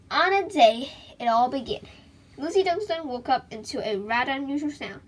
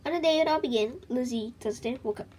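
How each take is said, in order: First: More dramatic read. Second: Said in the usual way. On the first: Shown as a demonstration. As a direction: give it more suspense this time. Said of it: "Okay, that's a little better". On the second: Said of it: "that's a start, but it's not very exciting".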